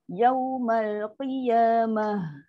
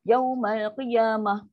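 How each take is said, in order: First: The rounded vowel is full, with rounded lips. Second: The rounded vowel is clipped and the h unbreathed. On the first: The speaker calls it right. "waw tu muncung" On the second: The speaker calls it wrong. "Ini yang kita baca yang biasa tu"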